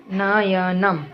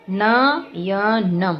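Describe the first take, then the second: First: Said in the usual way. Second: Slow demo. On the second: Shown as a demonstration. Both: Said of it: "तो इसमें जैसे इसमें दिया गया है".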